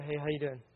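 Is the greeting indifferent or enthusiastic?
indifferent. The greeting sounds casual and indifferent.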